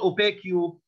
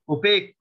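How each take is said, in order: First: An extra vowel follows the final k sound. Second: The word ends cleanly on the k sound. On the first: The speaker calls it wrong. "not opaque you" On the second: The speaker calls it right. "UE in the end of words doesn't pronounce it"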